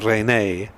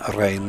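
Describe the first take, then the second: First: The name is said as two syllables. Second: The name is said as one syllable.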